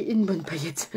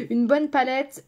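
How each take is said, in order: First: "paillette" said by mistake for palette, /pajɛt/; slip of the tongue. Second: "palette" corrected slowly with a laugh, /palɛt/; laughing correction. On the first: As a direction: stumbles into "paillette" instead of palette. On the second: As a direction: fix it to "palette", slower and laughing. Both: Real, not acted.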